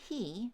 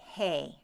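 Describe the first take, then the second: First: The vowel sounds like 'ee'. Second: The vowel sounds like 'ay'. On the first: This is the modern pronunciation. "instead of saying he" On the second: This is the Middle English pronunciation. "The E shifts to an A sound"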